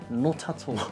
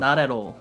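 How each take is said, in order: First: The t sounds are clearly and crisply released. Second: The t sounds are softened into quick flaps. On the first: "영국식은 아까 트 그런 거 살리고 not 그런 거 살린다" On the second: "원래 나레로라고 하는데"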